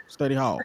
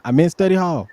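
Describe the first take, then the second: First: Said in the usual way. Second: I meant study HALL, hall raised and louder; correcting: punch hall in study hall; stress on hall. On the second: Real, not acted. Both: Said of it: "I said study guide last time".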